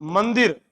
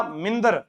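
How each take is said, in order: First: मंदिर as man-dir, i in the second syllable; correct pronunciation. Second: मिंदर as min-dar, vowels swapped; rustic मिंदर for mandir; dialect mispronunciation. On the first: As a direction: say मंदिर with an open first vowel. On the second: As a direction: say मिंदर with i in the first syllable. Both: Shown as a demonstration. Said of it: "मैं क्या बोलता था?".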